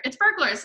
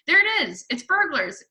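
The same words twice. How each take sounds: First: High, alarmed mother; an urgent cry rather than a true hiss. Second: Put-on high, loud alarmed boy; cried out. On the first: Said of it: "hissed the mother". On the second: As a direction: sound the alarm excitedly. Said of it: "cried the brother". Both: A narrator's reading.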